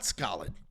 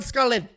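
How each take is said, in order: First: The name ends with a D sound. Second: The name ends without a D sound. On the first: The speaker calls it wrong. "it's not Skalid" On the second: The speaker calls it right. "I think the D is silent"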